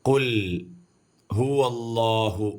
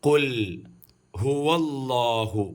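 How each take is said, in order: No difference in how they are said.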